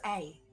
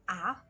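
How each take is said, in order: First: A long vowel sound, saying the letter's name. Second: A short vowel sound, as in cat. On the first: "the long vowel sound is A" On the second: "Short A sound is A"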